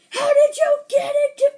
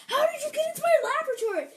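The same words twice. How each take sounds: First: Very high, very loud acted outburst; mad scientist shout. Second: Very high, fast, louder startled voice; surprised scientist. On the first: Mad scientist confronting the raccoon intruder, angry high shout. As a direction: shriek it like a furious cartoon scientist. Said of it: "mad scientist was like". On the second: Acted. Scientist finding a raccoon in his laboratory, surprised squeal. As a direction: blurt it in high-pitched astonishment. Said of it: "He's sorta surprised".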